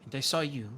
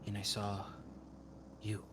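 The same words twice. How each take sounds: First: And I SAW you with a sharp fall on saw; stress on saw. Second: And I saw with a pause, then a quiet you; And I saw ... you, hushed and separate; softer pause before you. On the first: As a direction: hit the word saw hard, pointing at him. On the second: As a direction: let the word you land after a beat. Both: Acted. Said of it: "and she points back to Curon".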